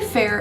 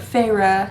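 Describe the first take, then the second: First: The name sounds just like 'fair'. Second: The name does not sound like 'fair'. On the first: This is the speaker's preferred pronunciation. "I like saying it Fair" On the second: This is the pronunciation used in the book. "That's how you say it in the book"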